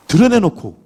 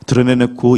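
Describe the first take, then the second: First: 드러내놓고 pitched high and louder; stress on 드러내놓고. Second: Said in the usual way. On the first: Shown as a demonstration. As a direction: punch out 드러내놓고 on a high falling tune. Repeats read word for emphasis.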